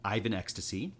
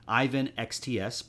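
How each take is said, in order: First: The last part is said as one word. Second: The last part is read as separate letters. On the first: The speaker calls it right. "pronounced Ivan Ecstasy" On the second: The speaker calls it wrong. "you said it wrong"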